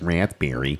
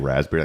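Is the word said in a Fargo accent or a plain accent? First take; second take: Fargo; plain. First: The word is said in a Fargo accent. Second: The word is said in a plain accent.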